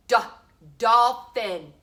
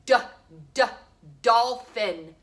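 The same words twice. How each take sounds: First: D, dolphin said louder, falling, D clipped; firm repeat of D, dolphin; sounding out D. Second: D, D, dolphin with punched D's; sounding out D. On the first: Teacher to pupils, louder sounding out dolphin. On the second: Teacher to pupils, sounding out D in dolphin. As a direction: tap out the D before dolphin. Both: Shown as a demonstration. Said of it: "What about".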